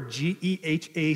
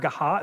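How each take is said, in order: First: The name is said as separate letters. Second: The name is said as one word. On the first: The speaker calls it right. "that's what we want you to say" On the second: The speaker calls it wrong. "we never say Gaha"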